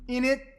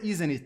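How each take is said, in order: First: The tag is squeezed into a short innit. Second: Every sound of the tag is said in full. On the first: "they say in it" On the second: "they don't say isn't it"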